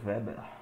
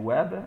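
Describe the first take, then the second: First: The name begins with a V sound. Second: The name begins with a W sound. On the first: This is the German way. "no alemão o W tem som de V" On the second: This is the usual Portuguese way. "o W tem som de W"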